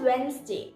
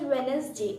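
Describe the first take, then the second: First: The middle d sound is left silent. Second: The middle d sound is pronounced. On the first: The speaker calls it right. "G is silent and that's why we call it as Wednesday" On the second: The speaker calls it wrong. "I have heard some people say it as Wednesday and that's wrong"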